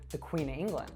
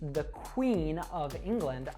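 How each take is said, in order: First: The word of is reduced to uh. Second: The word of is said in full. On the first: "I would reduce that to" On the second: "if I say the Queen of England"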